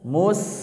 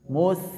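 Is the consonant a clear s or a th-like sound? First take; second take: clear s; th-like. First: The tongue tip stays free, giving a clear s. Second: The tongue tip touches the upper teeth, th-like. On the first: The speaker calls it right. "kalau ini ujung lidahnya lepas dekat ke ujung gigi seri ba bawah" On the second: The speaker calls it wrong. "kalau huruf sa apa ujung lidah ke ujung gigi seri atas mus mus kalau ini huruf sa"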